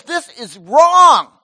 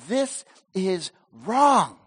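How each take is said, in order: First: Loud, slow shouted rebuke, higher; God's rebuke. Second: Slow, drawn-out admission; slow declaration. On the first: God rebuking the listener, loud slow shout. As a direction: thunder it out as God's voice. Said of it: "When God says". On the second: Ninevites confess to God, slow solemn vow. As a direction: stretch it out as a vow. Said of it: "They said". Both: Acted.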